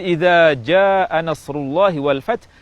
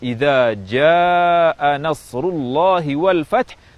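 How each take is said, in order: First: The vowel in jaa is held only briefly. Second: The vowel in jaa is stretched long. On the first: The speaker calls it wrong. "dengan panjang dua harakat" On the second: The speaker calls it right. "panjang mad yang lebih dari dua harakat"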